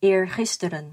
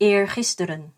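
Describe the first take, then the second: No difference in how they are said.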